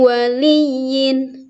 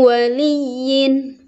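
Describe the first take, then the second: No difference in how they are said.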